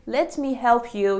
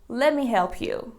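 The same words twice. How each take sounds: First: Each word is said fully and separately. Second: The words are run together in a contraction. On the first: It sounds formal. "instead of saying" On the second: It sounds casual. "use contractions"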